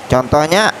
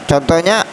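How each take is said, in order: Both takes have the same delivery.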